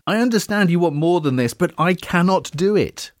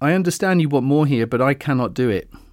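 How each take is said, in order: First: The voice sounds desperate and pleading. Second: The voice sounds firm and convincing. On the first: The speaker feels pushed too hard. "everything in my voice there said I'm quite desperate" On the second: The speaker really cannot give more. "Did you believe me the second time?"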